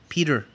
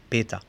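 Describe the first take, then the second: First: The name ends with an ER and R sound. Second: The name ends with an A vowel. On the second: "en alemán lo pronunciamos Peta, con A"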